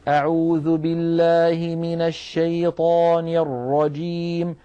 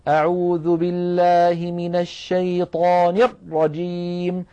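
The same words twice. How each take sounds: First: The R sound flows lightly and is not cut. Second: The R sound is pressed hard and cut off. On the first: The speaker calls it right. "الراء ... فالصوت فيه يجري جريانا ناقصا" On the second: The speaker calls it wrong. "هذا الضغط الزائد على الراء بحيث يبتر صوتها ويضغطها في مخرجها هو الحصرمة"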